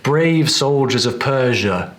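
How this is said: The final vowel of 'Persia' is a British schwa. The speaker calls it right. "We'd expect to hear"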